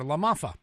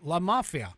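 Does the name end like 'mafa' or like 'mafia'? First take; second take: mafa; mafia. First: The name ends with the sounds 'mafa'. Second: The name ends with the sounds of 'mafia'. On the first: The speaker calls it right. "but it's LaMafa" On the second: The speaker calls it wrong. "I said mafia"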